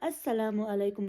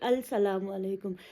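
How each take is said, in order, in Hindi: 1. 'l' मूक है और 's' दोहरा हो जाता है। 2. 'l' का उच्चारण एकल 's' से पहले होता है। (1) "जब मैंने प्रोनाउंस किया तो मैंने अस्सलामु अलैकुम बोला" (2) "ये नहीं बोला कि अल सलामु अलैकुम"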